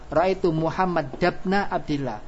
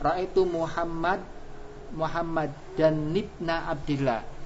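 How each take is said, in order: First: Muhammad ends without an n sound before ibna. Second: Muhammad ends with an n sound before ibna. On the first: The exception applies, so the tanwin is dropped. The speaker calls it right. "nun tanwin tadi dibuang" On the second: The general rule is applied without the exception. The speaker calls it wrong. "kalau kita kembalikan ke kaidah tadi yang bukan pengecualian"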